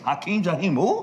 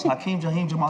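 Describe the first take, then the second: First: Higher, questioning rise on "who"; baffled echo question. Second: Raised, self-announcing caller voice; acted caller. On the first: Retold or imitated. Kid questions the caller's odd name, baffled echo question. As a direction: throw the name back in mock disbelief. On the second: Caller introduces himself to young Darius, acted caller. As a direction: state the name as the caller. Caller gives his name on phone.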